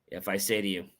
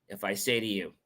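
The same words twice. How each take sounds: Both takes have the same delivery.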